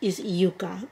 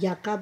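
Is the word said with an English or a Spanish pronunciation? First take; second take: Spanish; English. First: The word is said with a Spanish pronunciation. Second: The word is said with an English pronunciation. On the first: The speaker calls it right. "In Spanish" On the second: The speaker calls it wrong. "I know a lot of you may pronounce it Yucca"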